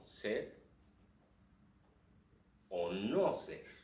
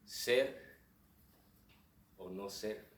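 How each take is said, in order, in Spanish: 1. Se hace una pausa y un acento fuerte en 'no ser'. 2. El acento cae en otra parte de la frase. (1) "queremos destacar lo que significa no ser... la pausa más el acento" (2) "si el acento se cambia a otro lado"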